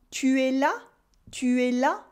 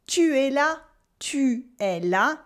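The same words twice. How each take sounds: First: "Tu es là?" rising at the end on "là"; rising question. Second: "Tu es là" with a falling statement tune; flat statement. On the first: Teacher turns the statement into a question, rising. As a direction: lift "là" into a question. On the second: Teacher models the statement before the question, flat. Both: Shown as a demonstration. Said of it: "add an inflection to an affirmation".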